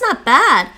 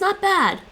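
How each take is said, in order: First: It is said in a warm, enthusiastic tone. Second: It is said in a flat, lukewarm tone. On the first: The food is really great. "means it's great" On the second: The food is only mediocre. "doesn't mean it's great"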